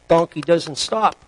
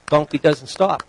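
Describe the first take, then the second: No difference in how they are said.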